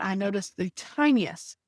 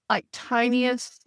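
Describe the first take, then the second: First: Said in the usual way. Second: "tiniest" drawn out slowly and lifted higher; stress on tiniest. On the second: Shown as a demonstration. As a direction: linger on "tiniest" to show how small it was.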